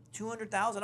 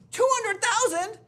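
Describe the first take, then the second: First: Said in the usual way. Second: High, loud, slow incredulous cry; shocked disbelief. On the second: Retold or imitated. Realtor learns he was outbid at his own price, shrieking disbelief. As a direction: squeal the number in disbelief.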